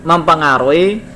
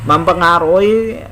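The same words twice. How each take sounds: The two takes are said the same way.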